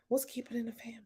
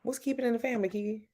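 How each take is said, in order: First: Whisper. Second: Said in the usual way. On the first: Real, not acted. Reading a comment aloud quietly.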